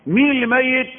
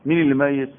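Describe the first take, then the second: First: "مين اللي ميت" high and louder; loud challenge. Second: Said in the usual way. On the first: Shown as a demonstration. Preacher challenges the congregation, high and loud. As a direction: throw the question at the crowd.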